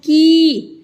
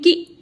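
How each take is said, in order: First: The vowel is long and drawn out. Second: The vowel is short and said quickly. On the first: "इसको थोड़ा सा खींच के बोलते हैं" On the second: "इसको जल्दी से बोलते हैं"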